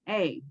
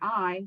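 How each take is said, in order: First: The vowel sounds like 'ay'. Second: The vowel sounds like 'eye'. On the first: The speaker calls it right. "it's A" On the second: The speaker calls it wrong. "we're used to saying I"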